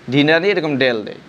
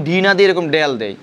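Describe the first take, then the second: No difference in how they are said.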